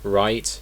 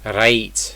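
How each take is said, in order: First: The R is soft, without any roll. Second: The R is strong and almost rolled. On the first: "It's not really pronounced in British English" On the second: "It's almost like a rolled R"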